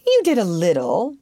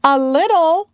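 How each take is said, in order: First: Offhand, casual concession; careless. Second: High, loud, affronted echo; haughty pride. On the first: Peter, still dancing, to Wendy, carelessly. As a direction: toss it off without caring. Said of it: "Peter said carelessly". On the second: Wendy answers Peter's slight, haughtily. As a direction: repeat it with lofty indignation. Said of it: "she replied with haughtier pride". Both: A narrator's reading.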